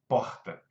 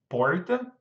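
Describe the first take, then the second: First: The R is the Brasília R, not English-like. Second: The R sounds like an English R. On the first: "o meu R de Brasília é ra" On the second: "Em outras partes do Brasil, o seu R pode ser porta... você já tem um R do inglês"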